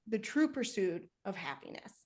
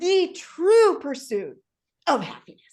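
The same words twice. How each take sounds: First: It is said with low, fading energy. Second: It is said with high, strong energy. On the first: The speaker calls it wrong. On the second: The speaker calls it right.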